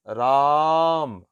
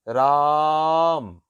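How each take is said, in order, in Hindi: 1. स्वर बहुत लंबा खींचकर बोला गया है। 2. स्वर बहुत लंबा खींचकर बोला गया है।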